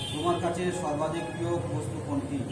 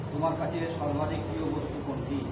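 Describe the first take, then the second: Both takes have the same delivery.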